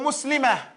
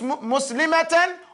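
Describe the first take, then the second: First: The word ends with a soft h sound. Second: The word ends with a t plus vowel.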